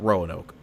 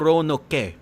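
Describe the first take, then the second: First: The final e is silent. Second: The final e is pronounced. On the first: "A Filipino person would not call it Roanoke" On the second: "because they pronounce the e at the end of Roanoke"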